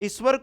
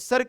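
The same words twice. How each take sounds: First: The word is said with its full initial vowel. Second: The word is said with a vowel dropped. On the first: The speaker calls it right. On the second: The speaker calls it wrong.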